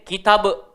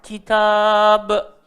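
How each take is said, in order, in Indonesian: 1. Vokal kedua dipotong pendek secara tiba-tiba. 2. Vokal kedua dibaca panjang. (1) "Jangan berhenti handbrake. ... Tak boleh" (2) "Jadi kita kena panjang"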